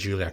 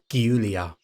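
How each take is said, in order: First: The name is said the international way. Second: The name is said a non-international way. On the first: "Maybe I'm pronouncing it the international way" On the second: "Maybe it's more like Giulia"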